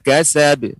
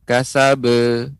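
First: The final b ends in a short bounce. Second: The final b is followed by a full vowel. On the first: The speaker calls it right. "pengucapannya pantulan" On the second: The speaker calls it wrong. "kurang tepat juga pengucapan kasabe"

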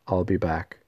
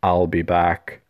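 First: It is delivered as a casual throwaway line. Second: It is delivered as a dramatic, weighty line.

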